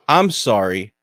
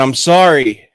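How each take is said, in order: First: I'M punched, turning the apology round; retort, stress on I'M. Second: Louder apology leaning on SORRY. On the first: Kid to a bad driver, mock apology with I'M stressed. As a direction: lean hard on I'M to throw it back. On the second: Driver to the kid he almost hit, apology with SORRY stressed. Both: Retold or imitated.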